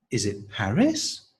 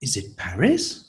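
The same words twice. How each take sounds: First: Is it Paris? climbing on Paris; rising intonation. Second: Is it Paris? rising on Paris; rising question. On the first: Teacher repeating rising intonation model. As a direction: ask it with a rise on Paris. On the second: Teacher modelling a rising question. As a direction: lift the voice up on Paris. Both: Shown as a demonstration. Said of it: "So rising intonation for that one".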